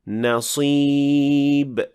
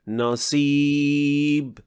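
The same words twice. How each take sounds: First: The s sound is heavy and emphatic. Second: The s sound is light and plain. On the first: The speaker calls it right. "it should sound like this" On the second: The speaker calls it wrong. "producing a sin-like sound"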